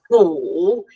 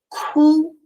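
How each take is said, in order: First: The syllable has a low dipping tone. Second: The syllable has a high level tone. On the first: It means bitter. "já virou terceiro dom" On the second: It means to cry. "primeiro tom"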